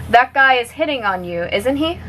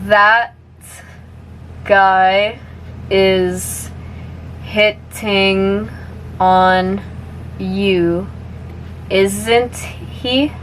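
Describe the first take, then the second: First: The sentence is spoken at natural speed. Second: The sentence is spoken slowly. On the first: "one more time at normal speed" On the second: "I'll say it slowly first"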